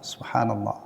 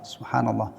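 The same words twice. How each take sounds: Both takes have the same delivery.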